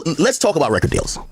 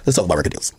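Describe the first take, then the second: First: Said in the usual way. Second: Much lower repeat. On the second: Shown as a demonstration.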